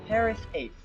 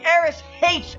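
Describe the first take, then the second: First: The first word begins with a spoken h sound. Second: The first word begins with a vowel, no h. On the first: The speaker calls it wrong. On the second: The speaker calls it right.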